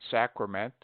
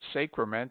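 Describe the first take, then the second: First: The first vowel is a short A. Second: The first vowel is a very long A. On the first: The speaker calls it right. "the derivations are properly pronounced with A short" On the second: The speaker calls it wrong. "He invariably says sacrament and sacrifice with a very long A"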